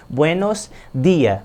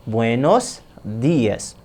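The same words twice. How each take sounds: First: Días said without final s, slowly; wrong version. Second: "días" said slowly with a clear final s; corrected version. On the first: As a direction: read it as "días" dropping the s, slowly. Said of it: "O que que tá errado?". ("días" sem o s final, devagar) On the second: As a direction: stretch out "Buenos días" and sound the s. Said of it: "Observaram como é que vai ser?". ("días" bem devagar com o s no final) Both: Shown as a demonstration.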